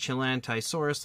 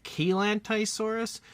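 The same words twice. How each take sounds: First: Said in the usual way. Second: Chelantysaurus in its other pronunciation, likely a hard K opening; "Chelantysaurus" with Ch turned into K; alternative pronunciation. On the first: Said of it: "like I've just said it". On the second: Shown as a demonstration. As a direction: say "Chelantysaurus" starting with a K sound instead of Ch. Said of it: "I've also heard it pronounced like".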